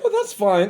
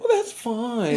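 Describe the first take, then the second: First: It is said in a plain, neutral tone. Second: It is said in a pitying, sympathetic tone. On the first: It is simply acceptable. "It wasn't like" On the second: The speaker feels sorry for the listener. "like I feel bad for you"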